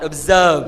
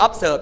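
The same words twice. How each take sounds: First: "observe" drawn out carefully as the model; correct pronunciation. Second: "observe" said the mistaken way; wrong pronunciation. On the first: Teacher modelling "observe" for students to repeat, carefully pronounced. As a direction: model "observe" slowly and firmly. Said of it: "ออกเสียงตามครูค่ะ observe". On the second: Teacher warning students off a wrong "observe", mispronouncing it. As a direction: demonstrate the faulty "observe". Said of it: "ไม่มี observe อย่าให้หลอด". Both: Shown as a demonstration.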